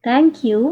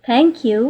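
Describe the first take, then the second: The two takes are said the same way.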